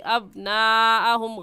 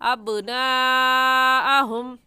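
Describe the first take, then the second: First: The b sound stops dead without any bounce. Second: The b sound ends with a short echoing bounce. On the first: The speaker calls it wrong. "गलत है" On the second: The speaker calls it right. "सही है आवाज़ पलट कर आए"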